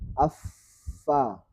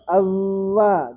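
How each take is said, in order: First: The middle consonant is voiceless, only air flowing. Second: The middle consonant is voiced, vocal cords buzzing. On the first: The speaker calls it right. "tapi affa. Jadi tidak bergetar pita suaranya" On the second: The speaker calls it wrong. "Bukan avva, ... pasti bunyi itu pita suaranya"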